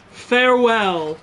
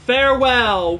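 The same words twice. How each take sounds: First: Slow, drawn-out, louder farewell; slow, hammed-up mock farewell; quoting the farewell meme. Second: Loud, mock-heroic farewell call; louder, imitating the NPC's parting shout; mimicking the NPC's farewell. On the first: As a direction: stretch it out like the meme. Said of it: "I love that video". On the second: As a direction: belt it like the game character. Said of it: "before he does farewell".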